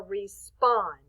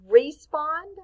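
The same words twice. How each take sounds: First: RESPOND with a strong SPOND, falling; weight on the last syllable of RESPOND; stress on second syllable. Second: RESPOND wrongly accented as REE-spond, rising; misplaced punch on the start of RESPOND; stress on first syllable. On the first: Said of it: "I say the spond a little bit stronger". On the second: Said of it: "Do I say respond or respond?". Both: Shown as a demonstration.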